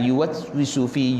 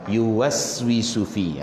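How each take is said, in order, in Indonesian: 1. Bunyi s ditahan dan terputus. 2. Bunyi s keluar mengalir bebas tanpa berhenti. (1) "yuwaswisufi kita tahan suara, jangan" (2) "Lepas yuwaswisufi, ha, macam tu"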